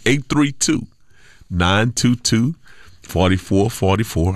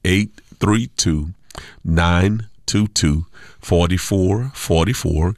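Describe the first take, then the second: First: The number is said at a fast pace. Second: The number is said at a slow pace.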